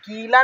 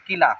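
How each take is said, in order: First: कीला with the first vowel held long; wrong long i. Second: किला with a quick, short first vowel. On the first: Teacher showing what not to say, vowel stretched. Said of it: "नहीं बोलेंगे इसको". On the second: Teacher showing the short vowel sign, said quickly. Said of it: "छोटी का मतलब होता है, जल्दी से". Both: Shown as a demonstration.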